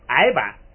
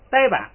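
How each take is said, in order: First: The first syllable is ai, with no initial d. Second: The first syllable is dai, starting with d. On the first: This is the older, original reading. "咱们说话说那个矮版" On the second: This is the reading everyone now uses. "后来大家呢不念矮都念呆"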